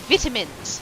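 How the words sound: It is said in a British accent. "I say it the way British people do"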